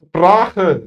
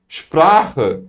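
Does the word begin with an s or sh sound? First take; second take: s; sh. First: The word begins with a plain s sound. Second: The word begins with a sh sound. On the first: The speaker calls it wrong. "Sizler sıp yapmıyorsunuz" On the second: The speaker calls it right. "Şıplıyorsunuz"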